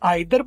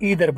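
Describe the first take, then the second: First: The first vowel sounds like 'eye'. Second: The first vowel sounds like 'ee'. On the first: This is the British way of saying it. "British वाले आइदर बोलते हैं" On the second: This is the American way of saying it. "American वाले ईदर बोलते हैं"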